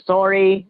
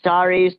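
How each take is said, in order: First: It is said with a Canadian-style vowel. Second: It is said with a plain American vowel. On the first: The speaker is pretending to be from Canada. "I tried to be as Canadian as possible" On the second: This is how the speaker normally says it. "I was adjusting my sorries"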